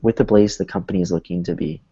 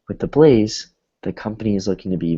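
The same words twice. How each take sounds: First: It runs on with no pause after blaze. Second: There is a short pause after blaze. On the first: The speaker calls it wrong. "instead of saying" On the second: The speaker calls it right. "you pause a little bit. So it should sound like"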